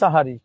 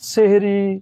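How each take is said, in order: First: The first vowel is an 'a' sound. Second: The first vowel is an 'e' sound. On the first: The speaker calls it right. "শব্দটা হবে সাহারি" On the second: The speaker calls it wrong. "সেহরি নয়"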